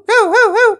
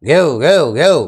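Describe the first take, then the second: First: Much higher squeaky little puppy barks; puppy yap. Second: Put-on old dog bark. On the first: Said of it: "বাচ্চা কুকুর". (বাচ্চা কুকুরের মতো সরু ঘেউ ঘেউ) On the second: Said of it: "আর বুড়ো কুকুর". (বুড়ো কুকুরের ভারী ঘেউ ঘেউ) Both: Shown as a demonstration.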